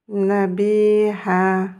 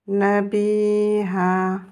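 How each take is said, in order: No difference in how they are said.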